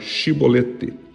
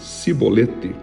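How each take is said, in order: First: The word begins with an sh sound. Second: The word begins with an s sound. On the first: The person belongs to Jephthah's side. The speaker calls it right. "como som de X" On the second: The person is from the enemy tribe. The speaker calls it wrong. "com som de S"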